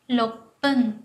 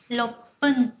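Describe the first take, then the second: No difference in how they are said.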